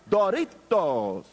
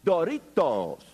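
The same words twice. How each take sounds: First: Put-on slow Spanish-accented Doritos with a rolled r, "Doritos". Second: Spanish Doritos. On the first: Boyfriend teaching girlfriend on the phone, slow Spanish Doritos. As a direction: say "Doritos" slowly the Spanish way, trilled r. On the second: Retold or imitated. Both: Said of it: "how to say Doritos in the proper phonetic Spanish".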